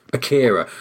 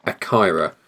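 First: Akira said ah-KIH-rah, short i vowel. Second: Akira said ah-KYE-rah, long i as in eye. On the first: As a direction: Akira with the middle vowel like kit, not eye. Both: Shown as a demonstration. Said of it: "I keep saying Akira".

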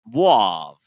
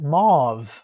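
First: "mauve" loud, drawn out like "mwahv"; insistent odd pronunciation. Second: "Mauve" louder, falling, with a plain vowel and firm v; corrective pronunciation. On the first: Co-host refusing the correction, insistent odd pronunciation. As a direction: insist on "mauve" with a long "wah". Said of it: "Stop saying that". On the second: Co-host correcting the other's word, corrective pronunciation. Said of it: "Why are you saying it like that?". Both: Shown as a demonstration.

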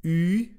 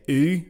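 First: Ooh pushed up and forward, close to the nose; a forward, nasal French u on Ooh. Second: Plain English ooh, rounded and pulled back. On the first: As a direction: pitch the Ooh higher and put it in the nose, the French way. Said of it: "It's up in the nose, very forward". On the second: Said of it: "Americans and Northern Irish people like myself will say ooh". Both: Shown as a demonstration.

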